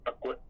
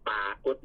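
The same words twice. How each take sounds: First: ปรากฏ with a short first "pa"; shortened vowel. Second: ปรากฏ with a long first "paa"; original long vowel. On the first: Teacher explains the spelling change, ปรากฏ with short first vowel. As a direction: make the first syllable of ปรากฏ brief. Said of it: "งสั้น". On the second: Teacher explains the spelling change, ปรากฏ with long first vowel. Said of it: "เมื่อออกเสียงพยางค์คณิตของคำว่าปรากฏเป็นเสีย". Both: Shown as a demonstration.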